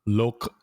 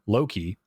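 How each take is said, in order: First: The name ends in a short, weak e sound. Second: The name ends in a clear ee sound. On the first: "would be spelled L O K E and pronounced like Lok" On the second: "the E becomes an I as sort of an approximation"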